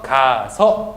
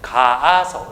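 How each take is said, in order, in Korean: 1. 모음 a는 한 번만 발음해요. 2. 모음 a는 연달아 두 번 발음해요. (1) "뒤에 있는 모음을 탈락시켜 버리는 겁니다" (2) "가아서 이렇게 발음을 해야 돼요"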